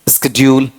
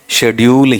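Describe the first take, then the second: First: The word begins with an 'sk' sound. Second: The word begins with an 'sh' sound. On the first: This is the American pronunciation. The speaker calls it wrong. "स्केड्यूल किस में है, American में है" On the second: This is the pronunciation used in their own variety. The speaker calls it right. "अपने वाले में स्केड्यूल है या शेड्यूल है, शेड्यूल ही है"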